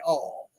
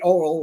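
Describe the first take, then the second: First: It is said with a Texas pronunciation, like all. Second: It is said with a standard, non-Texas pronunciation. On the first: "We say all" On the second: "we don't say oil"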